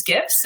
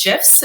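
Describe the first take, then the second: First: "gifs" with a hard G, as in gift. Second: "gifs" with a soft G, like jifs. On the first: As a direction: say "gifs" starting with a hard g sound. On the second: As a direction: say "gifs" starting with a j sound. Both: Shown as a demonstration. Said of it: "see which one is most popular".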